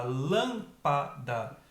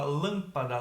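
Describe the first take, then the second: First: LÂMPADA broken slowly into three separate syllables; pausada, sílaba por sílaba. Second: Said in the usual way. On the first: Shown as a demonstration. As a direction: say lâmpada very slowly, one puff of air per syllable. (lâmpada pausadamente, separando as três sílabas) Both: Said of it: "Você faz pausadamente a pronúncia".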